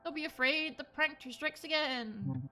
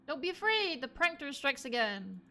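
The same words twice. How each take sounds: First: It is said with little feeling. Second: It is said with much more feeling.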